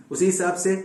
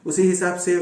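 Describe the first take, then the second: No difference in how they are said.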